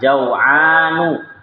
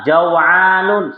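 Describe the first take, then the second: First: The word ends on a vowel without final n. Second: The word ends with an extra final n sound. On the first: The speaker calls it right. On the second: The speaker calls it wrong.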